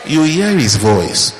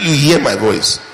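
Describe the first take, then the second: First: Slow, every word weighed on "hear"; slow emphatic. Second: "hear" punched with a falling finish; stressed quote. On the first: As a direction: lay it down slowly, word by word. Preacher drives point home. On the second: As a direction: quote Jesus, hitting "hear". Quoting Jesus. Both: Shown as a demonstration.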